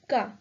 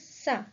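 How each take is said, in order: First: The c is pronounced like a k. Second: The c is pronounced like an s. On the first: The speaker calls it wrong. "If we remove the accent, the pronunciation would be" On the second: The speaker calls it right. "So the pronunciation is"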